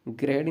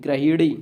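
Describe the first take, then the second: First: गृहिणी squeezed to gre-ree; teacher showing the slurred mistake; wrong pronunciation. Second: गृहिणी with a clear middle hi, gra-hi-ree; teacher's emphatic corrected form; correct pronunciation. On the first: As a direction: swallow the middle hi of गृहिणी. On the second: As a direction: sound the हि fully in गृहिणी. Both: Shown as a demonstration. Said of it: "गृहिणी नहीं".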